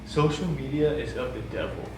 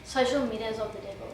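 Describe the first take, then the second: First: Imitating her, mildly dramatic and deliberate; retold extreme pronouncement. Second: Lower, softer, matter-of-fact statement; understated version. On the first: Teller quotes her shutting down the social media question, mildly extreme. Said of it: "I didn't say it like that". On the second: Shown as a demonstration. Woman shows how she really said it, low and understated. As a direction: say it quietly and undramatically, pitched down. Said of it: "how'd you say it?".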